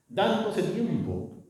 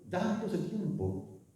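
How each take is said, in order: First: "dándose tiempo" drawn out slowly, high and full; "dándose tiempo" said slow and higher, fully voiced; slow emphasis. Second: "dándose tiempo" repeated slowly and much softer; a hushed slow echo of "dándose tiempo". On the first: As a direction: lean on "dándose tiempo", stretching each syllable. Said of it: "repeated phrase for emphasis". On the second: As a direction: let "dándose tiempo" fall away quietly, slow. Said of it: "soft echo of the phrase". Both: Shown as a demonstration.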